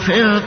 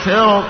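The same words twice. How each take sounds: First: The r is pronounced light and thin. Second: The r is pronounced heavy and full. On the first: "هذا ترقيق" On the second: "التفخيم لوجود حرف الاستعلاء"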